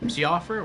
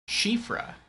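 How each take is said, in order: First: The name is said as spelled, starting with 's'. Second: The name is said as 'shifra', starting with 'sh'. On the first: The speaker calls it wrong. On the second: The speaker calls it right.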